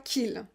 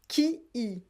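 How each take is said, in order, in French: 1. La voyelle de qui tombe, ce qui donne une seule syllabe. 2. Les deux voyelles sont gardées, ce qui donne deux syllabes distinctes. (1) "Pas qu'il" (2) "prononcez bien qui il est"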